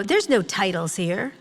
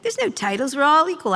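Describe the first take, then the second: First: Said in the usual way. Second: Higher, louder mock-earnest boss voice; mocking impression. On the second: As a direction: parody their smug claim of equality. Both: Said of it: "That was my, like".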